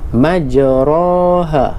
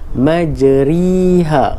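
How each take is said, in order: First: The vowel after r is an open a. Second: The vowel after r is a close i. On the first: "kita sebut pada bunyi fathah" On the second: "Kalau kasrah"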